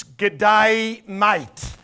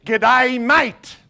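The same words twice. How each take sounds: First: Broad Aussie g'day mate, teaching it; Australian greeting. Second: Louder, hearty Aussie "G'day, mate", pitched up; Australian greeting. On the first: Preacher teaching the crowd an Aussie greeting, broad Australian. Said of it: "this is what we will say in Australia". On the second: Preacher showing visitors how to greet, hearty Australian. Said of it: "you can walk up to someone and say". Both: Shown as a demonstration.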